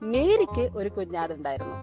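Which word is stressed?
മേരിക്ക്. The word മേരിക്ക് carries the emphasis. Mary is the main point. "മേരിയാണ് അവിടുത്തെ highlight അല്ലെ"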